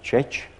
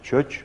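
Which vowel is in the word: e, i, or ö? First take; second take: e; ö. First: The word has an unrounded mid vowel, e. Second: The word has a rounded front vowel, ö. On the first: This is the Palóc form. "a palócok úgy mondták" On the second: This is the Szeged-area form. "Szeged környékiek úgy mondták"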